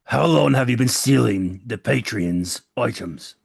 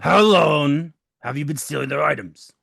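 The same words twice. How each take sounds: First: Slow, deliberate questioning; slow interrogation. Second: Sharper, louder repeat of the question; pressing interrogation. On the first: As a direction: lean on each word of the question. Interrogating the captured thief. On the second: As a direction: push the question harder. Repeats question more forcefully. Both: Acted.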